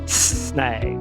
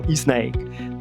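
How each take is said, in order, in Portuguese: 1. A palavra começa direto com o som de s. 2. Um i extra é adicionado antes do s. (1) "cobra, snake" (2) "não snake"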